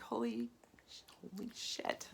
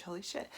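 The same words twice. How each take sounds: First: Hushed, whispered holy shit; stunned realization. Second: Said in the usual way. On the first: Retold or imitated. Realizing why she falls asleep, whispered awe. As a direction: let it dawn on you in a whisper. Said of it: "I'm like". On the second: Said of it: "Excuse my language".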